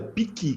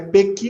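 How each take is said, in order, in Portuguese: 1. A primeira sílaba tem a vogal 'ee'. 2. A primeira sílaba tem a vogal 'e' aberta. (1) "é piqui que fala aqui" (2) "E não é pequi, não"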